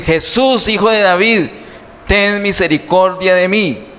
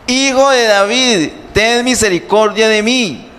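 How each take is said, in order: First: High-pitched plea for mercy, acted; narrated cry for help, raised in pitch. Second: Urgent high cry for mercy; acted beggar's plea, pitched well up; clamoring harder. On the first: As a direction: call out like a blind beggar pleading. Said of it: "comenzó a dar voces y a decir". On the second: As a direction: cry out insistently over those hushing you. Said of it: "pero él clamaba mucho más". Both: A narrator's reading.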